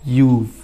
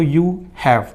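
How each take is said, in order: First: It is said as one short contracted word. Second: It is said as two separate full words. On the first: "अगर contraction रहा तो" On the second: "separate अगर रहा तो"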